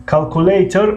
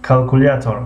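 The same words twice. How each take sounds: First: کالکولیتر said "kal-ku-LAY-tor", higher pitched; English pronunciation. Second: کالکولیاتور said "kal-ku-LYA-tor"; Russian pronunciation. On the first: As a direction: say کالکولیتر with an English "ley" in the middle. (تلفظ انگلیسی «کالکولیتر») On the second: (تلفظ روسی «کالکولیاتور») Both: Shown as a demonstration. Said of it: "یا با زبان روسی".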